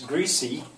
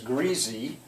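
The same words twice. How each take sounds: First: The middle consonant is a hissing S sound. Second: The middle consonant is a buzzing Z sound.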